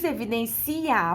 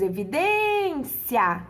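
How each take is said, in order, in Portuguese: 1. O i e o a finais são separados em sílabas. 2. O i e o a finais são fundidos em uma só sílaba. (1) "você não diz evidencia" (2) "você diz evidência"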